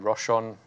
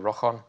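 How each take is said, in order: First: The ch is a plain sound, not throaty. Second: The ch is a throaty sound like 'loch'. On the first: This is how it is said in southern England. "in South England they say Rochon" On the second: This is how it is said in Scotland. "in Scotland you say Rochon with the ch sound for loch"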